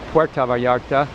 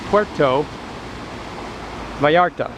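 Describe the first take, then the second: First: The first word ends with an 'a' sound. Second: The first word ends with an 'o' sound. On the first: It would mean the door of Vallarta. The speaker calls it wrong. "Some people say it incorrectly" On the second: It means the port of Vallarta. The speaker calls it right. "it's port of Vallarta"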